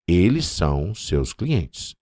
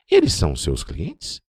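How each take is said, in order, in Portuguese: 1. É dito com entonação plana de afirmação. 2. É dito com entonação de pergunta. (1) "afirmando positivamente" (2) "aquela entonação de pergunta"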